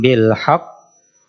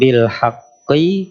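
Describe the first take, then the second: First: The last word ends on a consonant. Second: The last word ends with a short vowel. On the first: The reader stops at this word. "ketika berhenti" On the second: The reading continues without stopping. "di sini tulisannya"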